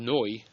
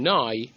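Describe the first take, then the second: First: The vowel is a rounded oh. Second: The vowel is a full, long ah. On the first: The speaker calls it wrong. "but not oh" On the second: The speaker calls it right. "a proper kamatz, like ah"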